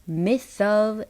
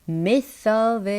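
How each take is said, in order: Both takes have the same delivery.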